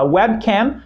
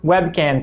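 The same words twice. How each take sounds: First: The word ends with a closed-lip m sound. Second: The word ends with an n sound. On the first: A camera for the web. The speaker calls it right. "Você quer falar webcam" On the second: A virtual can. The speaker calls it wrong. "que seria algo como lata virtual"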